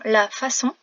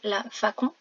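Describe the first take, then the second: First: The C is pronounced as an S sound. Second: The C is pronounced as a K sound. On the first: The speaker calls it right. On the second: The speaker calls it wrong.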